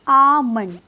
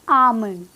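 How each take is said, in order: The two takes are said the same way.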